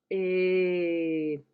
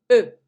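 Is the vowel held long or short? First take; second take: long; short. First: The vowel is held for about five seconds. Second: The vowel is held for about one second. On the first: "pronunciamos una E de forma larga, es decir, por más tiempo. Calculemos unos cinco segundos" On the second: "ahora pronunciamos la misma vocal por un segundo"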